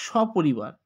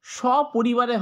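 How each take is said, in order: First: সপরিবার said lower, ending on র; correct form. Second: সপরিবারে said slowly with the final এ; wrong form. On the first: Teacher giving the right সপরিবার to students. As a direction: clip সপরিবার with no final এ. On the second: Teacher slowly voicing the wrong form for the class. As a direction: sound out the wrong ending in সপরিবারে. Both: Shown as a demonstration. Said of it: "সপরিবারে হয় না".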